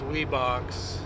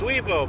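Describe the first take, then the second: First: The name is said ending with an x sound. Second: The name is said 'wee-bo' with no x sound. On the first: The speaker calls it wrong. "a lot of people think that's Weebox" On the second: The speaker calls it right. "It's Weebo"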